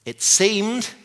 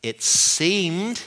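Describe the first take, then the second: First: "seemed" pushed much higher and rising; "seemed" hit hard at the top of the voice; stronger emphasis on seemed. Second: "seemed" stressed with a rising tune; "it seemed" pressed and rising; emphasis on seemed. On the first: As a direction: repeat "it seemed", stretching "seemed" up high. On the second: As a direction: lean on "seemed", lifting it up. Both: Shown as a demonstration. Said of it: "emphasis on appeared".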